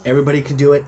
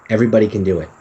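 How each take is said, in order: First: Everybody can do it pushed louder, do punched; insist, hitting do hard; emphatic repeat. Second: Said in the usual way. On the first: Shown as a demonstration. Speaker urging listeners that everybody can do it, louder and emphatic.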